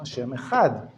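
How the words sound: It is spoken with a Sephardic Hebrew pronunciation.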